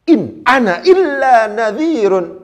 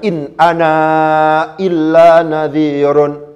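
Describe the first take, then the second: First: The written final letter of 'ana' is silent. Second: The written final letter of 'ana' is pronounced. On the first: The speaker calls it right. "Tulisannya ada. Ya kan? Tapi tidak kebaca ini" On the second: The speaker calls it wrong. "Bukan in ana illa nadhirun"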